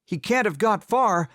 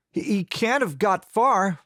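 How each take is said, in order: First: Raised, urgent rehearsed line; practiced alarm call. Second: Too quick, nervous. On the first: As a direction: blurt it out high like an alarm. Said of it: "ready to grab my musket and say". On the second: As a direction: blurt it out guiltily fast. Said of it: "I said too quickly". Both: A narrator's reading.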